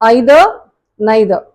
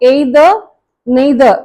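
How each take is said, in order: First: The words begin with an 'eye' vowel. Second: The words begin with an 'ay' vowel. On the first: The speaker calls it right. "யூகேல British pronunciation" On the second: The speaker calls it wrong. "இந்த ஏய் sound வந்து completely it's wrong"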